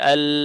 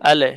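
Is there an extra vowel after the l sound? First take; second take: no; yes. First: The word ends cleanly on the l sound. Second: An extra vowel sound follows the l sound. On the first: The speaker calls it right. "Proper উচ্চারণ হচ্ছে জিহ্বাটা আপনার উপরের তালুতে লাগবে" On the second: The speaker calls it wrong. "আলে এরকম শব্দ চলে"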